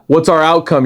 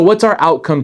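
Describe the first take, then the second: First: It is asked in a curt, impatient tone. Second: It is asked in a warm, friendly tone. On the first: The speaker feels the talk is wasting their time. The speaker calls it wrong. "And not, ... You're wasting my time. No, not like that" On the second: The speaker genuinely wants to hear the other's goal. The speaker calls it right. "I've started doing this more often in my conversation"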